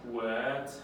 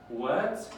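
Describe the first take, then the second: First: The pitch dips low. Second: The pitch rises upward.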